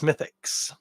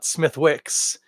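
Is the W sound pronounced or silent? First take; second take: silent; pronounced. First: The W sound in the middle is silent. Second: The W sound in the middle is pronounced. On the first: The speaker calls it right. "we don't pronounce the W" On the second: The speaker calls it wrong. "it's not Smithwicks"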